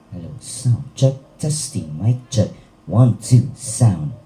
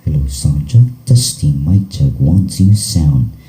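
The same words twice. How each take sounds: First: The sound has a flat, unaltered equalizer curve. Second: The sound has a V-shaped equalizer curve. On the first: "tunog na naka-flat yung ating E Q" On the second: "naka letter V yung uh, pattern"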